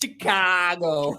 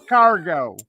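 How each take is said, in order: First: Slow, drawn-out Chicago accent on "Chicago". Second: "Chicago" as "Chi-car-go", louder and punchier; Chicago accent. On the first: Asked by co-host to say Chicago, slow Chicago accent. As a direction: stretch "Chicago" out, thick Chicago style. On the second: Showing his own take on the word, loud Chicago accent. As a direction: bark "Chicago" with a broad Chicago a and r. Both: Shown as a demonstration. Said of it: "Say Chicago in your most Chicagoan accent".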